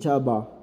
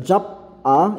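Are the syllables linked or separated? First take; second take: linked; separated. First: The consonant links into the next syllable as B. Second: The final P stays separate from the vowel. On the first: The speaker calls it right. "kaya nagiging jaba" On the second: The speaker calls it wrong. "imbis na jap a"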